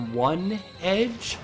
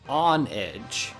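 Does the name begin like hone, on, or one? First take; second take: one; on. First: The name begins with the word one. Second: The name begins with the word on. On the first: The name means a single blade. The speaker calls it wrong. "because it evolves into a Pokemon called Doublade" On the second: The name means honor and a blade's edge. The speaker calls it right. "because it's honor and the edge of a sword"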